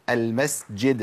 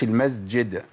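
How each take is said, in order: First: المسجد slow, with a clear hissed s; correct seen. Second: المسجد with the s voiced into a z; wrong, as zay. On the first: Teacher modelling a frequent Quranic word, المسجد with clear s. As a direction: keep the s of المسجد voiceless before the jeem. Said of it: "ما قولش المسجد". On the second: Teacher showing what not to say, المسجد with z. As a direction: buzz the seen of المسجد like a z. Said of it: "ما قولش". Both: Shown as a demonstration.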